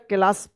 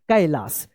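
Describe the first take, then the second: First: The first vowel sounds like 'eh'. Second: The first vowel sounds like 'eye'. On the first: The speaker calls it wrong. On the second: The speaker calls it right.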